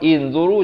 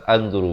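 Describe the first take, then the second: First: The word begins with an i vowel. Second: The word begins with an a vowel. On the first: "jangan baca baris bawah inzuru" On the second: "jangan baca baris atas anzuru"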